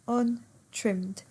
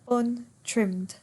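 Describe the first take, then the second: No difference in how they are said.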